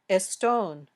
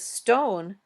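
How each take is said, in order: First: An extra vowel comes before the st cluster. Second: The word starts directly with the st cluster.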